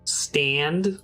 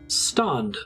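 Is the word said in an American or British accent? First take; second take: American; British. First: The word is said with an American accent. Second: The word is said with a British accent. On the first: "American English is like stand" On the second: "British English is like stand"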